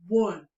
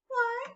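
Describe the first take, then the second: First: The voice is pitched deep. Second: The voice is pitched high. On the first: "let's count that in a deep voice" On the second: "count in a high voice"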